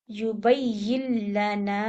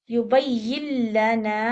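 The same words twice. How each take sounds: First: "युबय्यिल लना" drawn slowly, alif stretched; long alif two counts. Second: Slow "युबय्यिल लना" with lam doubled and alif held two counts; long alif. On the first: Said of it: "टू count". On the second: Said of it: "अलिफ के साथ". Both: Shown as a demonstration.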